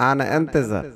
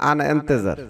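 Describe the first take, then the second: The two takes are said the same way.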